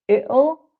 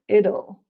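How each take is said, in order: First: The middle consonant is a glottal catch. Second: The middle consonant sounds like a soft d. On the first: "more of a sort of glottalized t sound" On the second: "I've put it with a d sound"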